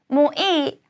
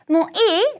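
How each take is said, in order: First: The pitch falls at the end. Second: The pitch rises at the end. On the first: It answers that the speaker has had enough. "더는 괜찮아 라고 대답하는 게 된다는 거" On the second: It asks whether the other person has had enough. "문장을 올려주시면 다 안 먹어도 괜찮아? 라는 의미"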